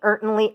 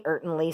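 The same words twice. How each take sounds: First: Goose's honking retort; emphatic barnyard gander. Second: Softer repeated echo; fading echo. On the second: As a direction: let the word fade away. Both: A narrator's reading. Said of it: "said the gander".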